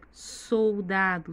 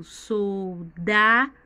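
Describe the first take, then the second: First: Said in the usual way. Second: Soldado split slowly as sol-DA-do, DA loud and long; slow, loud soldado, heavy on DA; stress on DA. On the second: Shown as a demonstration. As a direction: punch the middle syllable of soldado, stretching it out. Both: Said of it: "Sílaba tônica mais forte é o dá".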